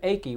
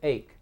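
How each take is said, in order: First: An extra vowel is sounded after the K. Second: The word ends on the K sound. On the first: The speaker calls it wrong. "We don't say achy" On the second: The speaker calls it right. "we say ache. The E is silent"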